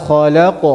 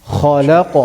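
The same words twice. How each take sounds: No difference in how they are said.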